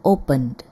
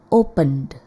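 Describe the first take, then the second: No difference in how they are said.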